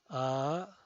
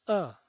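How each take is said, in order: First: The pitch rises from mid to high. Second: The pitch falls from high to low. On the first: "El segundo tono es ascendiente" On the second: "El cuarto tono es un tono bajado"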